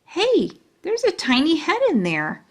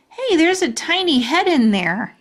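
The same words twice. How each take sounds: First: High, thrilled exclaim; excited. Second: High, loud and thrilled; bursting with discovery; excited. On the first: Junie B spotting the tiny picture, excited. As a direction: chirp it with delight. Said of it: "very excited". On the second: Junie B spotting the tiny picture in the locket, excited. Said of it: "I said, very excited". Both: Acted.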